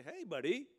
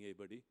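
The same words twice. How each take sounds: First: Loud, high "Hey" tossed off casually; mock casual greeting. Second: Said in the usual way. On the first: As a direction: greet God like an old pal, loud and breezy. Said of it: "I'm gonna say". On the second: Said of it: "No, you're not gonna be saying".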